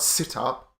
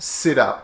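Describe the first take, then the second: First: The two words are said separately, unlinked. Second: The T links smoothly into the next word. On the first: The speaker calls it wrong. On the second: The speaker calls it right. "And it connects in connected speech"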